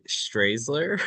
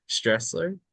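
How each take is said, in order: First: Strasler with a long "ay", as "STRAYZ-ler"; unsure name attempt. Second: Stressler with a short E, as in "stress"; second name attempt. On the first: Newcomer guessing at a role's name, Strasler said "STRAYZ-ler". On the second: Newcomer guessing at a role's name, Stressler said "STRESS-ler". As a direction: try Stressler as "STRESS-ler", higher and questioning. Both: Shown as a demonstration. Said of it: "I don't know".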